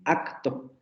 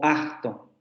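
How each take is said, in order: First: The k sound is fully pronounced as a stop. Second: The k sound is weakened and not fully stopped. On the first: "nosotros no la pronunciamos generalmente así" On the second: "Nosotros generalmente la pronunciamos así"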